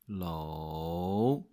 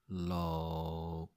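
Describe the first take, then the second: First: The pitch dips low and then rises. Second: The pitch stays low and level. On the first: "the long version of third tone is low" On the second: "The short version goes like low, so it's just your lowest sound"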